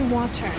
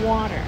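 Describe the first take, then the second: First: The T is pronounced crisply and clearly. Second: The T is softened and nearly disappears. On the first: This is how the speaker says it now. "So I say water now" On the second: This is how the speaker used to say it. "before it would have been water"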